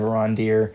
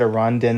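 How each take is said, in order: First: The name ends with an R sound. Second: The name ends with an N sound. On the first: The speaker calls it right. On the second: The speaker calls it wrong.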